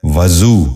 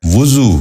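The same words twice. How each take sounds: First: وضو said as "va-zoo", short a after v; mispronounced. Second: وضو said as "vu-zoo", short u after v; correct pronunciation. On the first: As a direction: open وضو with "va". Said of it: "یہ غلط تلفظ ہے". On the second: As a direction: open وضو with "vu". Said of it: "درست تلفظ ہے". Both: Shown as a demonstration.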